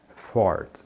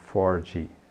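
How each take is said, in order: First: The name ends cleanly on the d sound. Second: An extra vowel sound follows the final d. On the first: The speaker calls it right. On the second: The speaker calls it wrong.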